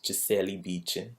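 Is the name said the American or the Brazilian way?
Brazilian. The name is said with a Brazilian pronunciation. The speaker calls it right. "The real Brazilian way to say her name is"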